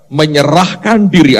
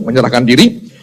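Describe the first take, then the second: First: "Menyerahkan diri" drawn out slowly for emphasis; stressed MENYERAHKAN DIRI. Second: Said in the usual way. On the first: Shown as a demonstration. Preacher has listeners underline it, slow emphatic "Menyerahkan diri". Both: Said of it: "Anda garis bawahi itu".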